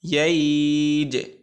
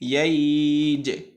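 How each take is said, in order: Both takes have the same delivery.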